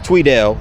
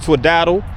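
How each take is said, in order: First: The name sounds like 'Tweedell', with a long vowel. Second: The name sounds like 'Twiddle', with a short vowel. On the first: The speaker calls it right. "I think it's Tweedell" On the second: The speaker calls it wrong. "I said Twiddle"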